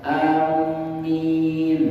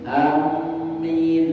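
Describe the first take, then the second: First: The m is held long and doubled. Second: The m is held long and doubled.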